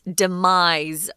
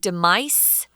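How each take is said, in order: First: The middle consonant is a Z sound. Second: The middle consonant is an S sound. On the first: The speaker calls it right. "demise with a Z sound" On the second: The speaker calls it wrong. "it looks like demise"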